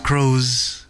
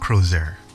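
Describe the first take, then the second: First: The word ends cleanly on a 'z' sound. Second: The word ends with an added 'ee-er' sound. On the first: The speaker calls it right. "It's Croz Hermitage" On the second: The speaker calls it wrong. "I keep saying Crozier, but it's not Crozier"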